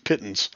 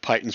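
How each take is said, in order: First: The first syllable sounds like 'pit'. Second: The first syllable sounds like 'pie'. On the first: The speaker calls it right. "It's Pittons" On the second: The speaker calls it wrong. "I said it Pythons for years as well"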